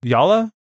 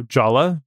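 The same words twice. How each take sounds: First: "Yala" with a Y sound, higher and questioning; Y pronunciation. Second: "Jala" with an English J sound; hard J pronunciation. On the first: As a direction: say "Yala" starting like "yard", as a question. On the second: Podcaster trying out a company name, "Jala" with hard J. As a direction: say "Jala" starting like "jar". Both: Shown as a demonstration. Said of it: "it's not pronounced Jala".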